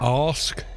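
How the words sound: It is said in a Southern English accent. "like in Southern English, ask, which is received pronunciation"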